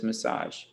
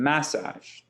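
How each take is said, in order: First: The stress is on the second syllable. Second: The stress is on the first syllable. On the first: The speaker calls it right. "a much bigger emphasis on the saj" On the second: The speaker calls it wrong. "If we reverse this stress"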